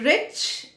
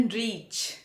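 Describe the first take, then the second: First: "rich" with a short i. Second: "reach" with a long ee. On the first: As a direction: keep the vowel brief in "rich". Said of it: "छोटी ई की मात्रा". ("rich" में छोटी इ की मात्रा) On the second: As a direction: stretch the vowel in "reach". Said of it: "बड़ी ई की मात्रा". ("reach" में बड़ी ई की मात्रा) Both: Shown as a demonstration.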